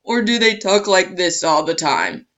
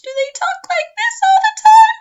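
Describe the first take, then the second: First: Lower, louder pushed-down voice; low pitch. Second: Squeaky, very high and loud voice; very high pitch. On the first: Teacher demos a too-low voice to students, lower. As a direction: demo an abnormally low speaking pitch. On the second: Teacher demos a too-high voice to students, very high. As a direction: demo an abnormally high speaking pitch. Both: Shown as a demonstration. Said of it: "a lower pitch or a higher pitch".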